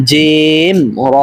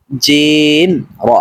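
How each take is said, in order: First: "জিম র" with both names held long; correct drawn-out pronunciation. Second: Long "জিম", then "র" cut short; wrong short ending. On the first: Teacher correcting learners, both "জিম" and "র" drawn out. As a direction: stretch "র" as well as "জিম". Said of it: "বরং সঠিক উচ্চারণ হলো". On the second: Teacher showing the mistake, "র" short after "জিম". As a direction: stretch "জিম" but drop "র" quickly. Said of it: "এরকম উচ্চারণ করা ভুল". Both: Shown as a demonstration.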